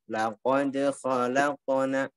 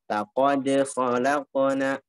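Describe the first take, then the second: Both takes have the same delivery.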